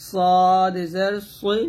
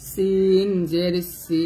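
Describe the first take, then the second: First: Teacher sounds সদ heavy and slow; heavy Arabic sad. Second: সিন said thin and light; teacher sounds সিন light, slowly; thin Arabic sin. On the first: Tutor shows students the heavy সদ, slow and full. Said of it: "সদ জের সই বলতে হবে মোটা করে". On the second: Tutor shows students the thin সিন, light and slow. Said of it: "সিন হবে পাতলা". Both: Shown as a demonstration.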